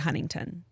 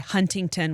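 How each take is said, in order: First: The middle T sound is dropped. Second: The middle T sound is clearly pronounced. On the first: "we say Huntington" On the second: "we don't say Huntington"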